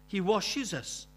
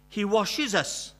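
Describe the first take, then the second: First: Said in the usual way. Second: Emphatic, slow. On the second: Real, not acted.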